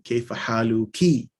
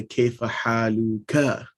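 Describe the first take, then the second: First: "haluki" ending in a long "kee"; feminine ending KI. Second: "haluka" slowly, ending in an open "kah"; masculine ending KA. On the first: Teacher showing the form for mother, "haluki" with "kee". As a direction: finish "haluki" on a clear "kee". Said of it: "which is feminine". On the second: Teacher showing the form for father, slow "haluka". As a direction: draw out "haluka" to a clear "kah". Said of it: "because it's masculine". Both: Shown as a demonstration.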